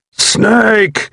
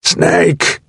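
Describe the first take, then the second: First: Desperate cry. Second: Strained cry of a wounded man; pained call. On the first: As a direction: cry out, more desperate now. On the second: Wounded soldier calling his buddy in pain. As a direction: call out high and hurting. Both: A narrator's reading. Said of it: "he grunted painfully".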